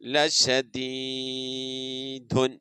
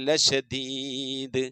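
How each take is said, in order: First: The word ends with a full '-un' ending. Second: The word stops without its final vowel ending.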